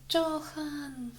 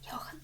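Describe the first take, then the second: First: The name begins with a J sound. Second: The name begins with a Y sound. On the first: The speaker calls it wrong. "я сейчас прочитала Джохан" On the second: The speaker calls it right. "хотя говорится Йохан"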